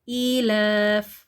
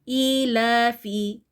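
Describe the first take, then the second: First: The word ends on a bare f consonant. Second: The word ends with a short i vowel. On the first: The reading stops on this word. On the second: The reading continues into the next words.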